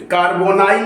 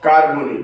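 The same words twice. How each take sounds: First: कार्बोनाइल ending in "-nile"; wrong pronunciation. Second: कार्बोनिल ending in short "-nil"; correct pronunciation. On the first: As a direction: show the mistaken कार्बोनाइल, kaar-bo-nile. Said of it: "कार्बोनाइल नहीं बोलना है इसको". (कार्बोनाइल, अंत में "नाइल" वाला ग़लत उच्चारण) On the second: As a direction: model कार्बोनिल as kaar-bo-nil. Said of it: "कार्बोनिल बोलना है". (कार्बोनिल, अंत में छोटा "निल" वाला सही उच्चारण) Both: Shown as a demonstration.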